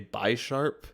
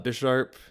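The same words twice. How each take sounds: First: The name sounds like bi plus sharp. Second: The name sounds like the word bishop. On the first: It refers to two sharp claws. "like two sharps" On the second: It refers to a chess piece. "so they're like two chess pieces"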